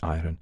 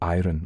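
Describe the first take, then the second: First: The R sound is left out of the word. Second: The R sound is clearly pronounced in the word. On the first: The speaker's own household said it this way. "We would say iron" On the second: Local farmers said it this way. "would call iron, like the Scots do still"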